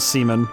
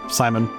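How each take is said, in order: First: The first vowel sounds like 'ee'. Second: The first vowel sounds like 'eye'. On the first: The speaker calls it wrong. "I know I misread that wrong" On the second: The speaker calls it right. "call him Simon because he's just Simon"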